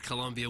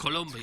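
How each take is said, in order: First: It is said with a plain American English pronunciation. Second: It is said with a put-on Spanish-style pronunciation. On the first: The speaker calls it right. "If you just had said Colombia" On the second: The speaker calls it wrong. "Instead of"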